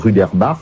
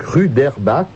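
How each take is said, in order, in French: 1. Le nom se prononce à l'allemande. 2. Le nom se prononce à la française.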